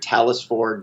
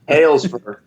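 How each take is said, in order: First: The name is said in its usual pronunciation. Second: The name is said in a southern-sounding pronunciation. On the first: This is the name's actual pronunciation. "It's uh, [name]" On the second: This is how other people mistakenly say the name. "I like it when people pronounce it like that because it makes me sound kind of southern"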